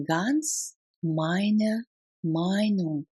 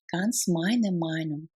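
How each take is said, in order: First: Very slow, separated words. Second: Said in the usual way. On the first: Shown as a demonstration. Teacher models full agreement for learners, word by word. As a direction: pause clearly between the words. Language drill, separated take.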